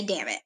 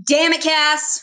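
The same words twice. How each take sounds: First: Said in the usual way. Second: Loud, higher exasperated quote; punchy, raised-voice mock scolding; exclaimed catchphrase. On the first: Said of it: "I can't just say". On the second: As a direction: call it out like a TV catchphrase. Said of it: "So it's always".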